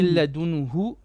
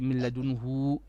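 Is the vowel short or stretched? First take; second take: short; stretched. First: The vowel is kept short. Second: The vowel is stretched out long. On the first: The speaker calls it right. "short vowel here" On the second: The speaker calls it wrong. "We don't say milladunhu, it's too much"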